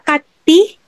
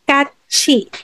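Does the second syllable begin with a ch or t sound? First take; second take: t; ch. First: The second syllable begins with a t sound. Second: The second syllable begins with a ch sound. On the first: The speaker calls it wrong. "hindi siya kati" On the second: The speaker calls it right. "but it's katchi"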